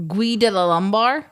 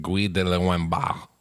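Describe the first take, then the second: First: "Guy de la Lombard"较响较高; louder try at the French name; French pronunciation. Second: "Guy de Lombard"慢读法式发音; French pronunciation. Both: Shown as a demonstration. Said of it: "pronounces it".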